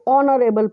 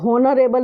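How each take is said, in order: First: The word begins directly with a vowel sound. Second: The word begins with an audible h sound. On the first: The speaker calls it right. "हम इसको ऑनरेबल पढ़ते हैं" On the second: The speaker calls it wrong. "हम इसको हॉनरेबल नहीं पढ़ते हैं"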